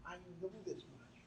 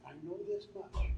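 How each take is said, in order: First: Softer, quieter repeat; hushed echo. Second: Louder, firm statement; emphatic first take; firm declaration. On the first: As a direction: say it again gently, inward. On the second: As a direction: declare it with conviction. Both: Shown as a demonstration.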